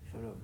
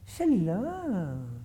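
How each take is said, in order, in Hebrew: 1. הברכה נאמרת בטון יבש וניטרלי. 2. הברכה נאמרת בטון חם ומפלרטט. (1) "יבש" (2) "אבל לא, שלום. זה אסור"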